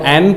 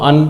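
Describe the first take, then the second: First: It starts with a full open 'a' vowel. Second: It starts with a short 'uh' vowel. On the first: "जब हम strong form में लगाते हैं तो ए और एन पढ़ते हैं" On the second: "हम जनरली बोलते हैं तो अ और अन पढ़ते हैं"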